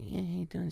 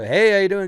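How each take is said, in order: First: It is said quietly and softly. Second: It is said loudly and fast.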